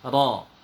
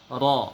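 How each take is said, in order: Both takes have the same delivery.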